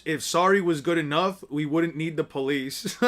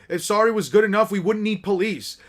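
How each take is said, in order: First: Lower, measured recital; understated, pointed quotation; quoting back. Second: Brisk, indignant comeback; acted mild telling-off; scolding retort. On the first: Acted. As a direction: recite someone's words back at them dryly. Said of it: "And I quote". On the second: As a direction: reject the apology with some force.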